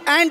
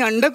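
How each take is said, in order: First: The vowel sounds like the one in cat. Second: The vowel sounds like the one in cup. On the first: The speaker calls it right. "A N D अँड इतकं सोपं असतं ते" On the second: The speaker calls it wrong. "आणि अंड कुठून काढलंस?"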